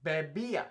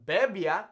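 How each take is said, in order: First: Bebía with the accented í stressed, be-BÍ-a. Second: Bebía wrongly stressed on the first syllable, BE-bia. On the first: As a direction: stress the middle of bebía, keeping í-a as two syllables. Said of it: "why we have the accent on the I". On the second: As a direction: punch the BE in bebía, running -bia together. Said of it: "It's not bebía". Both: Shown as a demonstration.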